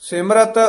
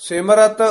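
The two takes are said the same way.

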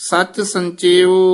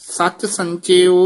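Both takes have the same delivery.

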